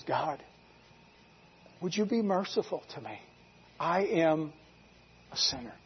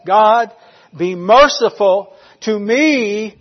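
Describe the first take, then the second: First: Very soft, halting prayer; humble plea. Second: Loud, drawn-out cry for mercy; chest-pounding plea. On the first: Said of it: "He just says". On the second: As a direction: plead forcefully, stretching each phrase. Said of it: "as he pounded his chest". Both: Retold or imitated.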